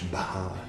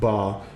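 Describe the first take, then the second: First: The b is followed by a puff of breath. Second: The b has no puff of breath after it. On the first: The speaker calls it right. "B H, Bah" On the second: The speaker calls it wrong. "not Ba"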